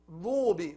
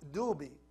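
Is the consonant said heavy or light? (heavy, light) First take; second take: heavy; light. First: The consonant is heavy, with a full mouth. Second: The consonant is light, with an empty mouth. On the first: The speaker calls it right. "It's ضاد, full mouth" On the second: The speaker calls it wrong. "but dal, it's empty mouth, soft"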